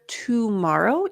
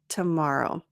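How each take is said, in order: First: The first vowel is said fully and clearly. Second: The first vowel is reduced and quick. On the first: "instead of tomorrow" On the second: "it's a little bit reduced to tomorrow"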